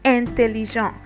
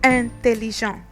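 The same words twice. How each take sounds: Both takes have the same delivery.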